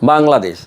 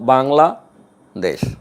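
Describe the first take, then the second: First: The word is said as one unbroken unit. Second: The word is split with a break between parts.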